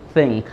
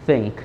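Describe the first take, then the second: Both takes have the same delivery.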